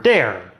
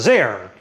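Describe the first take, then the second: First: The word begins with a d sound. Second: The word begins with a z sound. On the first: "Quebec French speakers, on the other hand, will get around it by using D" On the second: "European French speakers will fix it by using Z"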